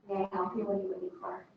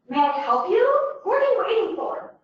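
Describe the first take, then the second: First: The speaker sounds uninterested and uncaring. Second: The speaker sounds irritated and impatient.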